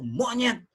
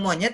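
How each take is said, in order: First: The word is said with an insulting, charged intonation. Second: The word is said flatly, without feeling. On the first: It is meant to offend the listener. "Saya memberi nyawa kepada monyet itu" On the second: It is just a neutral word. "dia biasa-biasa saja"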